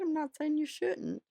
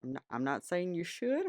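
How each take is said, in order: First: High, sly and teasing. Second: Said in the usual way. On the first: Pretend. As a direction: wink it at the viewer, sing-song high. Coy disclaimer, then sly reversal.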